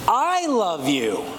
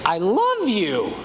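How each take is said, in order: First: I said loudest and highest, the rest falling away; me, nobody else, loves you; stress on I. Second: Truly love, not just like; stress on love. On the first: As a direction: lean on the word I, not someone else. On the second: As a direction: put the weight on love. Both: Shown as a demonstration. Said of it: "where you put the emphasis".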